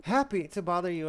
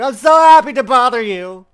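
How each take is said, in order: First: Said in the usual way. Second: Hammed-up cheerful, much louder; loud mock cheer. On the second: Shown as a demonstration. Mocking the game line with an overblown happy shout. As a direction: belt it out with fake glee.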